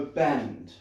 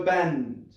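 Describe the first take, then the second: First: Low, falling "Bend" as a command; demonstrated command. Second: "Bend" with extra push, falling at the end; more insistent command. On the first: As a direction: say "Bend" low and deliberate, willing it to happen. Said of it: "Look at it and go". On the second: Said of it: "Now look at it, really go". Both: Shown as a demonstration.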